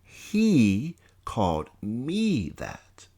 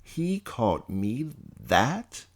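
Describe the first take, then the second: First: Very slow, falling realisation on "He called me that."; stunned statement. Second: Slow, rising disbelief with stress on "He"; "He called me that?" asked slowly, rising on "He"; incredulous question. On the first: Narrator accepting the insult, falling realisation. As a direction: let "He called me that." sink down flatly, slowly. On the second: Narrator stunned by the insult, asking himself in disbelief. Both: Acted.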